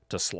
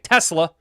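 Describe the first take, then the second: First: The stress is on the second syllable. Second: The stress is on the first syllable. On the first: The speaker calls it right. "emphasis on the sla" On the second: The speaker calls it wrong. "I have a bad habit of calling it"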